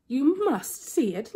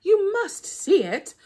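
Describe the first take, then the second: First: Insistent Anansi. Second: Much higher, louder, slowed angry insistence; losing patience now, push hard; high, loud, slow exasperated trickster; angry Anansi. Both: Acted. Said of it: "Anansi began to get angry".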